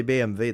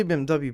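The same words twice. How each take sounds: First: "B M W" said bay-em-vay, as in German; German pronunciation. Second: Said in the usual way. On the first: Shown as a demonstration. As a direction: pronounce "B M W" with German letters, W as "vay". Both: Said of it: "That's the German way to pronounce it".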